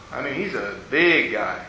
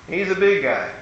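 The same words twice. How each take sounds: First: Low, knowing emphasis on big; emphatic repeat. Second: Said in the usual way. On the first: Shown as a demonstration. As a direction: repeat it lower and softer, leaning on big.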